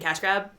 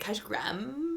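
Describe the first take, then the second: First: The final word is said short and plain. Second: The final word is drawn out, Valley Girl style.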